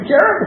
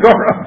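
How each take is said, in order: First: The first vowel sounds like 'e'. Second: The first vowel sounds like 'o'. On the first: The speaker calls it wrong. "I'm doing it again" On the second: The speaker calls it right. "Sorry, Gorev"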